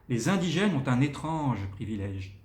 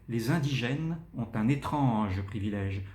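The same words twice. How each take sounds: First: Said in the usual way. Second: "étrange" lifted and stressed; modulated and articulated. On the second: Shown as a demonstration. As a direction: shape "Les indigènes ont un étrange privilège" with clear articulation. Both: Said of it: "on doit un petit peu moduler et articuler".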